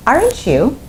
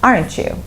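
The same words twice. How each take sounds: First: "Aren't you?" with the voice going up, unsure; rising intonation on "Aren't you". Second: "Aren't you?" with the pitch dropping at the end; falling intonation on "Aren't you". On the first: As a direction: ask "Aren't you?" as a real question, lifting the end. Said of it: "your voice goes up". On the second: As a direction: let "Aren't you?" fall, only seeking confirmation. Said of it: "if you use falling intonation". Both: Shown as a demonstration.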